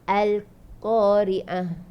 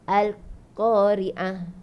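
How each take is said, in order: Both takes have the same delivery.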